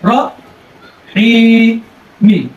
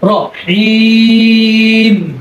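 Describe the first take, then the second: First: It ends on a short vowel after the m. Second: A long stretched vowel, then it stops on m. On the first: The reciter continues without stopping. "যখন আমরা ওয়াকফ করবো না অথবা থামবো না তখন রহিম মি" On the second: The reciter stops on this word. "ওয়াকফ করলে র হিম তিন আলিফ"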